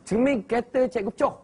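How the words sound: It is said in a Terengganu dialect accent.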